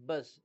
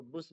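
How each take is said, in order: First: बस with an uh sound; uh vowel. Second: बुस with a short oo; wrong oo vowel. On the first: Teacher reading out "bus" for learners, बस with uh. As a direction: say बस with uh, not oo. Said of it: "यू का तलफ़ुज़ आ होता है". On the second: Teacher warning against a misreading, बुस with short oo. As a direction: say बुस with oo instead of uh. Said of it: "इसको बुस नहीं पढ़ेंगे". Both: Shown as a demonstration.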